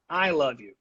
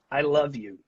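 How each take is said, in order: First: "I" leads, "love you" drops off; stress on I. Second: "love" stands out, "I" kept light; stress on LOVE. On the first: Teacher repeats the last example, stress on "I". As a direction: lean on the opening "I". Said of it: "put an unusual amount of stress". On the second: Teacher repeats the first example for students, stress on "love". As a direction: put the emphasis on "love". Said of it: "put extra stress on love". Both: Shown as a demonstration.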